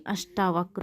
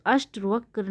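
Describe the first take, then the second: First: अष्टावक्र with long aa after ṣṭ; corrected long vowel. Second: अष्टवक्र with short a after ṣṭ; wrong short vowel. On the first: Teacher correcting a spelling, अष्टावक्र with long middle aa. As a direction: draw out the ṭaa in अष्टावक्र. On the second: Teacher showing students the error, अष्टवक्र with short middle a. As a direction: say अष्टवक्र without the long aa. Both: Shown as a demonstration. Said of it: "नहीं अष्टावक्र हो जाएगा".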